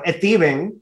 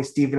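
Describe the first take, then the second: First: Put-on Stephen as "Esteban", in mom's Dominican accent; "Esteban" with a Dominican Spanish vowel before the S; thick Dominican accent. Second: Said in the usual way. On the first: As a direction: imitate a Dominican mother saying "Esteban" for Stephen. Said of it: "she had a very thick accent". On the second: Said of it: "would not call me Stephen".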